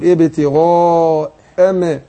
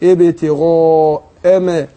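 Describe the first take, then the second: No difference in how they are said.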